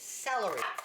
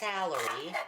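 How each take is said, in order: First: The first syllable sounds like 'sell'. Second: The first syllable sounds like 'sal'. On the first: The speaker calls it right. "Sell, like you're going to sell something" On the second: The speaker calls it wrong. "no, it's not salary"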